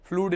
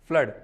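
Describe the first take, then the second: First: The vowel is a long oo sound. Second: The vowel is a short uh sound. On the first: The speaker calls it wrong. "फ्लूड नहीं" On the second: The speaker calls it right.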